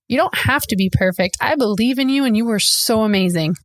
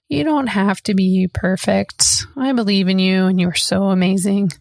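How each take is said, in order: First: It is said excitedly, with lots of energy. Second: It is said flatly, with little energy.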